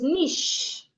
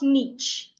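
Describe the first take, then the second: First: The word ends with an sh sound. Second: The word ends with a ch sound. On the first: The speaker calls it right. "The C H is pronounced like S H" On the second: The speaker calls it wrong. "not niche"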